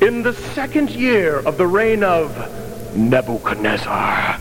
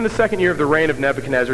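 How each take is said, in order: First: It is read in a lively, expressive voice. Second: It is read in a flat, dull voice. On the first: The passage really means something. The speaker calls it right. "read it like it really means something" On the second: The passage seems to mean little. The speaker calls it wrong. "already your sons are falling asleep"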